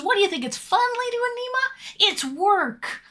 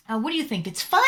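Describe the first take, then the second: First: Voicing a chatter, higher pitch; mock chatter voice. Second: Said in the usual way. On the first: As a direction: read chat in a lightly put-on higher voice. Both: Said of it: "Fred Andy says".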